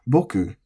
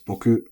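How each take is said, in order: First: The pitch starts high and then falls. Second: The pitch starts low and then rises. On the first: It sounds polite and respectful. "high low, is more um, polite" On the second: It sounds confident and masculine. "a bit more confident and masculine"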